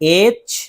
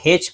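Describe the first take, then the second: First: The letter name begins with a vowel sound. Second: The letter name begins with an h sound. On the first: The speaker calls it right. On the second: The speaker calls it wrong.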